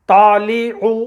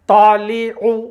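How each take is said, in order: Both takes have the same delivery.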